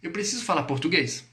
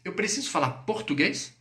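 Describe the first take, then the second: First: "português" falling at the end; affirmative statement. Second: "português" left raised as a question; interrogative. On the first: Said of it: "Afirmação". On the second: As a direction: ask it, keeping "português" up. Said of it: "fiz interrogativo". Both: Shown as a demonstration.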